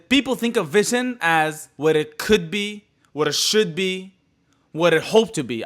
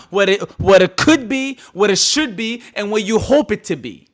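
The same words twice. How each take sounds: First: Said in the usual way. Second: Louder, rising lines recited like a poem; loud sing-song poet's cadence; poetic recital. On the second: Shown as a demonstration. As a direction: declaim it like a poet on stage. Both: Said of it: "I'm a poet right now".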